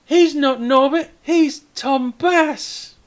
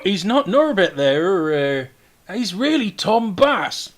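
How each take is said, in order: First: Put-on high, loud kid piping up; proud kid correction, stretched on the name; child's voice. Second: High, loud, drawn-out correction; correcting figure. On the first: Kid points up at the hero to correct the mayor, high child's voice. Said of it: "one of the kids points up at him and says". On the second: Acted. Someone corrects the castellan on the hero's name, high raised voice. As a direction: set him straight, slowly and loudly. Castellan is told Norbert is Tom Bass.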